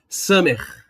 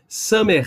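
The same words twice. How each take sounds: First: The word ends in a scraped throat sound. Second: The word ends in a scraped throat sound.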